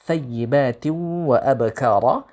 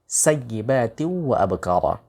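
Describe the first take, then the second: First: The first word begins with a th sound. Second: The first word begins with an s sound. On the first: The speaker calls it right. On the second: The speaker calls it wrong. "tha diganti sa"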